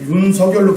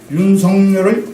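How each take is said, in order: First: No n sound is inserted before the last syllable. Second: An n sound is inserted before the last syllable.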